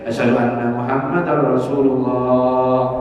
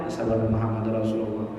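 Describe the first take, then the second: First: It is said loudly, in a full voice. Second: It is said quietly, in a low voice. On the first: The message is proclaimed openly. "Hanya menyaring" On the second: The message is kept hidden. "begamat dulu tukang azan"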